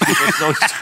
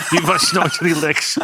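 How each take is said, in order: First: Said in the usual way. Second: Die was nooit relaxed, slowly through a laugh. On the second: Real, not acted. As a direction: let the laugh break into the words. Joke about nervous goalkeeper. (lachend en langzaam uitgesproken)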